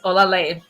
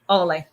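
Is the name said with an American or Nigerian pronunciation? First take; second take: Nigerian; American. First: The name is said with a Nigerian pronunciation. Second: The name is said with an American pronunciation. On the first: "Nigerian pronunciation is Olale" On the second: "but American pronunciation is Ole"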